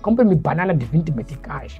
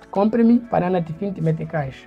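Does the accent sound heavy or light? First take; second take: heavy; light. First: The words are spoken in a heavy, weighty accent. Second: The words are spoken in a light, soft accent. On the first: The speaker is from the south. "tem um peso a mais na palavra" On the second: The speaker is from the north. "Norte, ... no norte nós temos a palavra muito mais leve"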